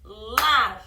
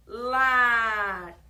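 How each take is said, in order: First: "Lar" said loud and clear; dictated word. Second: "Lar" said loud and held; one-syllable word. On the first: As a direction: call out "Lar" loudly. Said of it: "Vamos separar a última palavra?". ("Lar" bem alto) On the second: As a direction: sound out "Lar" as one single beat. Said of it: "Uma sílaba só". ("Lar" alto, uma sílaba só) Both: Shown as a demonstration.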